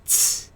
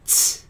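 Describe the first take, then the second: First: The t has a sharp hissing release. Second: The t has a sharp hissing release.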